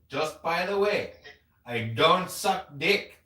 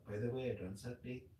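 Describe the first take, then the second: First: Loud, higher, exaggerated Indian accent; projected Indian accent. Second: Quick, soft, cute retelling; cute imitation. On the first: Imitating an Indian dentist date turning him down, projected Indian accent. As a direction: project a mock Indian accent, slow and emphatic. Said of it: "in that accent? She's got an accent, yeah. But, I mean, I'm really projecting it". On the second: Retelling how the date said it, cute and soft. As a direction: toss it off softly and cutely, imitating her. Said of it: "She said it cute".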